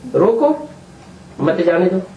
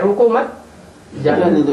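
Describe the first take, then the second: First: There is a pause right after रोको. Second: There is no pause right after रोको.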